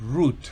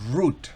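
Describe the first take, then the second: First: The vowel is a long 'oo' sound. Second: The same.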